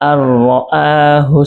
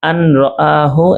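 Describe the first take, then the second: First: The n merges into a doubled r sound. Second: The n sound is pronounced before the r. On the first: The speaker calls it right. "পড়া হচ্ছে" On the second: The speaker calls it wrong. "আন রাআহু এর জায়গায়"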